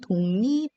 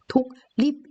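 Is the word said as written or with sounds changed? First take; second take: changed; as written. First: The consonants blend into different, assimilated sounds. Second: Each letter is sounded just as it is written. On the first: The speaker calls it right. "읽을 때는 독립 이렇게 들립니다" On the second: The speaker calls it wrong. "독립 이렇게 읽지 않죠?"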